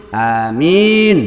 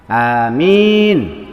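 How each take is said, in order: First: The second vowel is drawn out long. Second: The same.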